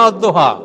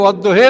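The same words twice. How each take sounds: First: অদ্দোহা with its last vowel as open "aa"; standard "a" ending. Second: অদ্দোহে with its last vowel as "e"; variant "e" ending. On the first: Lecturer voicing the doubt between readings, অদ্দোহা with final "aa". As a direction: end অদ্দোহা on "haa". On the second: Lecturer voicing the doubt between readings, অদ্দোহে with final "e". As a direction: end অদ্দোহে on "he". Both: Shown as a demonstration. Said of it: "তাহলে অদ্দোহে না অদ্দোহা".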